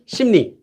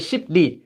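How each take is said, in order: First: The first syllable ends in an m sound. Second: The first syllable ends in a p sound. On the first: The speaker calls it right. "So they became 심리" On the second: The speaker calls it wrong. "It would be very hard to say 십리"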